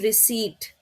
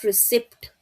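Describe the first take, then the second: First: The p sound is silent in the word. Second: The p sound is pronounced in the word. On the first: The speaker calls it right. "P is silent" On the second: The speaker calls it wrong. "It's not receipt"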